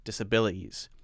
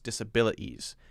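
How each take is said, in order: Both takes have the same delivery.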